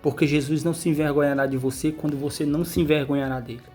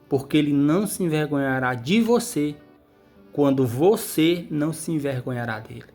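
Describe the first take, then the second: First: It is said at a normal pace. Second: It is said slowly and deliberately.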